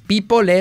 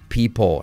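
First: The final L sounds like a strong Spanish L. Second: The final L sounds soft and controlled, English-like. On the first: The speaker calls it wrong. "No es people" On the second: The speaker calls it right. "es people"

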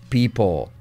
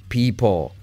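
The two takes are said the same way.

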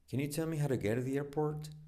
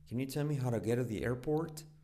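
Both takes have the same delivery.

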